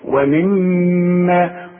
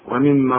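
First: The doubled m is held with a nasal hum. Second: The doubled m is short, with no nasal hum. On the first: The speaker calls it right. "كل ميم في القرآن ما دام عليها الشدة غنها" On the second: The speaker calls it wrong. "ما تقولش ومما رزقناه زي ما بنسمع ناس كتير"

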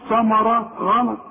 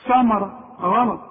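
Both takes have the same delivery.

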